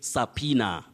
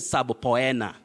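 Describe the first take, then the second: First: The word is said with no 'b' sound after the first syllable. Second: The word is said with a 'b' sound after the first syllable. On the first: The speaker calls it right. "You say subpoena" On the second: The speaker calls it wrong. "Don't say subpoena"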